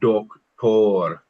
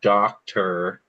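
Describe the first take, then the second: First: The o has a rounded Minnesota-style sound. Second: The o has a plain English sound. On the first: The speaker calls it right. "that Minnesota O that we were talking about" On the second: The speaker calls it wrong. "it's not doctor"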